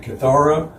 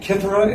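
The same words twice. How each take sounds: First: Kithara with the stress on THAR, as kih-THAR-uh; second-syllable stress. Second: Kithara with the stress on KITH, as KITH-uh-ruh; first-syllable stress. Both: Shown as a demonstration. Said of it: "how in the world do we pronounce it".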